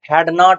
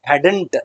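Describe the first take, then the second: First: It is said as two full separate words. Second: It is said as one short contracted word. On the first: The speaker calls it wrong. "ಹ್ಯಾಡ್ ನಾಟ್ ಅಂತ ಹೇಳ್ಬಾರ್ದು" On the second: The speaker calls it right. "Short ಆಗೇನೆ ಓದ್ಬೇಕು ಅದನ್ನ"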